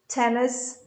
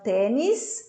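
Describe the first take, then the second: First: The word is said with English pronunciation. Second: The word is said with Portuguese pronunciation. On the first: The speaker calls it right. "tennis player" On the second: The speaker calls it wrong. "Não tênis"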